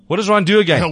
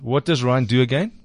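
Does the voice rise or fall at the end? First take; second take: fall; rise. First: It ends falling, like a statement. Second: It ends rising, like a question.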